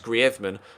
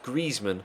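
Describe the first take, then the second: First: The name is pronounced the Spanish way. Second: The name is pronounced the French way. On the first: "the Spanish way, which is Griezmann" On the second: "in French, it's pronounced Griezmann"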